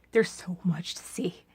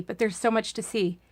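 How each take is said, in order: First: "There's so much to see" breathed in a whisper; soft whispered repeat. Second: Said in the usual way. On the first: Acted. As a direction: hush it like a secret.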